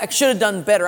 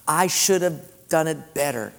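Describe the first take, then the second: First: Self-punishing regret. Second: Humble confession. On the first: The grieving person punishing himself, mock anguish. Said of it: "self-inflicted penance". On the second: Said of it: "repent and simply say". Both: Retold or imitated.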